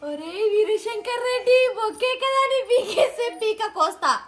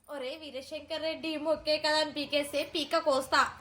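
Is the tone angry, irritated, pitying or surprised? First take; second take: surprised; irritated. First: It is said with surprise. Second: It is said with irritation.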